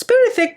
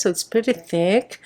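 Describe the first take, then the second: First: It's pretty thick jumping way up in pitch; high playful It's pretty thick; mock-impressed high. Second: Said in the usual way. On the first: Shown as a demonstration. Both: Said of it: "but it's not that thick".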